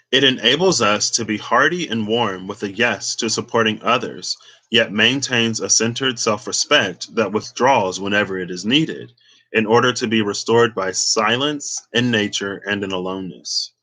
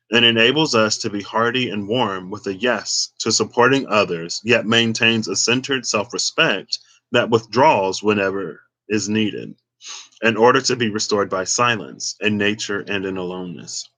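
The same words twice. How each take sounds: First: Said in the usual way. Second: Talking round a piece of gum; chewing gum. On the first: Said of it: "let's try that again". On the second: Real, not acted. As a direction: gum in the mouth while reading. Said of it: "let me take this gum out, 'cause it's tripping me up".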